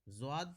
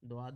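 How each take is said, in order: First: The word begins with a z sound. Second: The word begins with a d sound. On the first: This is the Urdu way of saying it. The speaker calls it right. "Urdu में हम ज़्वाद कहते हैं ... इसको हम ज़्वाद पढ़ेंगे" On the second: This is the Arabic way of saying it. The speaker calls it wrong. "अरबी में इसको द्वाद कहते हैं ... द्वाद नहीं पढ़ेंगे"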